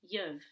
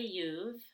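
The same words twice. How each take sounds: First: The vowel is short, as in book. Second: The vowel is a full, long oo. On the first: "or it can become you've. You've with a short back U, as in book" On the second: "can stay you've with less energy"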